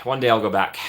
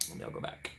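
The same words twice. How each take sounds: First: Said in the usual way. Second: Barely audible, voiceless repeat; whispered vow. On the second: Real, not acted. Streamer longs for the water park, whispering the vow. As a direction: whisper it as if to yourself.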